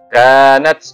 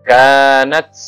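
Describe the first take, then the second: The two takes are said the same way.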